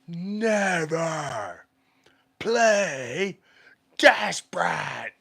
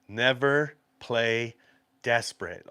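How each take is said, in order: First: It is said loudly and forcefully. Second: It is said at normal loudness.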